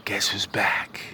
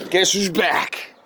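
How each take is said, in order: First: Hushed, breathy teasing whisper; whispered, like sharing a secret. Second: Hype call. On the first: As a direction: lean in and whisper it. Whispered take after loud one. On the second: Said twice, then whispered. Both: Acted.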